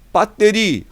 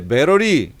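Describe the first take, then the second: First: It is said with Korean sounds, hard tt. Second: It is said English-style, with a flapped r-like sound. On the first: Listeners accept it without comment. "빠떼리 하면은 그냥 이해하는데" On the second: Listeners think the speaker is showing off. "왜 이렇게 혀 굴리냐고"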